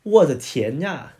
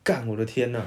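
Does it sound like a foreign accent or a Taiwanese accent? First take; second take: foreign; Taiwanese. First: It is said with a foreigner's accent. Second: It is said in a Taiwanese way.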